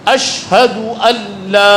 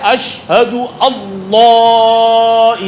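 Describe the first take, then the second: First: The vowel in 'alla' is kept short. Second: The vowel in 'alla' is drawn out long. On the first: It is read as the particle 'an la'. The speaker calls it right. "ये तो अन ला था" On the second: It is read as if it were the divine name. The speaker calls it wrong. "अब अल्लाह पर जो मद है, बहुत सारे लोग पढ़ते"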